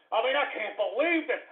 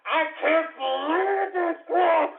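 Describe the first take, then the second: First: Softer, weary disbelief; subdued disbelief. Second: High, slow, drawn-out outcry; exasperated disbelief. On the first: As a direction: say it under the outburst, softly. Dismay, first take before outburst. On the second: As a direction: stretch it out in exasperation. Dismay escalates into outburst. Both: Real, not acted.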